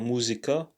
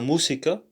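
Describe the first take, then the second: First: The s is sounded close to a z. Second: The s is sounded as a plain s. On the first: The speaker calls it wrong. "it's not a música" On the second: The speaker calls it right. "the S sounds like uh, just like a, a normal S"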